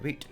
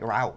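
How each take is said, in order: First: It is said with a British accent. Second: It is said with an American accent.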